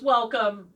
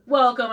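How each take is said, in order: First: Said in the usual way. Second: Louder dark lord welcome; booming welcome. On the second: Pretend. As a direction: announce it grandly. Repeated greeting, louder take.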